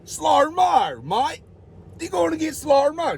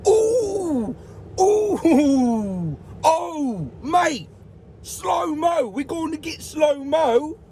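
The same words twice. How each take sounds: First: High mock New Zealand accent on slow-mo mate; retry the same line as a Kiwi, pitched high. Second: High, excited mock Australian accent, building to a shout on slow-mo. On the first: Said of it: "That's New Zealand, is it?". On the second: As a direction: play the hyped Australian guys cheering the slow-mo. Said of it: "They're Australian, aren't they?".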